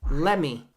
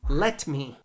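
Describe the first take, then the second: First: The T is dropped and the words are joined. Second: The T in 'let' is pronounced strongly. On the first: The speaker calls it right. "We take out the T, we connect let and me" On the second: The speaker calls it wrong. "That T is too strong"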